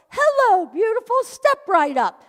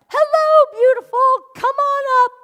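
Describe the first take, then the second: First: Cashier greeting. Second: High, loud sing-song greeting; hammed-up cashier welcome, higher and louder; cheery cashier call. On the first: Retold or imitated. Cashier greeting, second time. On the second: Third time, louder.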